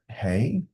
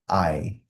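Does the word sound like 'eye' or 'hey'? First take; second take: hey; eye. First: The word starts with an h sound, like 'hey'. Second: The word has no h sound, like 'eye'. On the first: The speaker calls it wrong. "The first time I read it, I was like" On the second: The speaker calls it right. "No, it's I"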